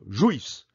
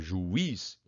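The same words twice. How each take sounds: First: The vowels glide together into one syllable. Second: The vowels split, with a stronger i. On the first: The speaker calls it wrong. "você ia falar de uma vez só" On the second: The speaker calls it right. "Então o i é mais forte"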